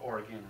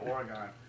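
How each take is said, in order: First: It is pronounced the way local residents say it. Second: It is pronounced the way outsiders usually say it.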